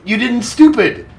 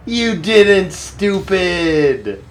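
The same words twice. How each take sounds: First: High, quick squeal of delight; giddy high-pitched cheer; excited squeal. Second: Very slow, stretched, high and delighted; slow sing-song gloat of joy; drawn-out cheer. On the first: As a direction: blurt it out thrilled and squeaky. Cheering on his game unit. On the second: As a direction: savour every word, dragging it out. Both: Real, not acted.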